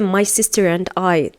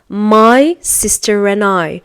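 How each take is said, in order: First: The word 'and' is pronounced in full. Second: The word 'and' is reduced to 'n'. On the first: "they are not going to say" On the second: "They are going to say"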